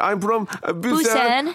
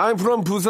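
First: The city name is said with exaggerated English vowels. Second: The city name is said in plain Korean. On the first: The speaker calls it wrong. "이렇게" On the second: The speaker calls it right. "그냥 I'm from 부산 하면 되는데"

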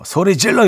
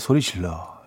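First: It is shouted harshly and loudly. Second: It is said softly and gently.

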